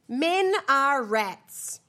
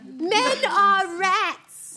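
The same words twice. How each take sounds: First: It is said in the speaker's ordinary voice. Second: It is said in a put-on character accent.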